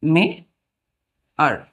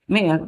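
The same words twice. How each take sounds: First: Put-on teacher stretching मेयर for children; drawn-out pronunciation demo. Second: Said in the usual way. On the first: Shown as a demonstration. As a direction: stretch मेयर very slowly, holding the "eyar" vowel. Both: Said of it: "ए को क्या पढ़ेंगे हम लोग?".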